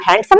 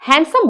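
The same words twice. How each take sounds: First: A 'd' sound is heard in the middle. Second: No 'd' sound is heard in the middle. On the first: The speaker calls it wrong. "हैंडसम नहीं बोलते" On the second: The speaker calls it right. "हैंडसम बोलते हैं"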